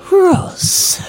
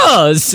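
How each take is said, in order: First: It is whispered. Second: It is spoken aloud, not whispered.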